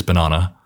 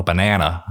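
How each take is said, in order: First: "banana" the British way, "ba-NAH-na"; British pronunciation. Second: "banana" the American way, "ba-NAN-a"; mimicked American pronunciation. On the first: Shown as a demonstration. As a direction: say "banana" with a long ah in the middle. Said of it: "I'll say banana". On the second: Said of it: "And it's like".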